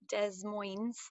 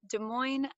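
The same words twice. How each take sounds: First: The name is pronounced in a mangled, unusual way. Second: The name is pronounced the usual, standard way. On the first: The speaker calls it wrong. "It is not Des Moines or any combination of, of phonetic impossibilities" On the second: The speaker calls it right. "but Des Moines, Iowa is our capital"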